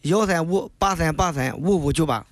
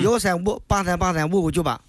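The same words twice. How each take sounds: First: The number is said at a slower pace. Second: The number is said at a quicker pace.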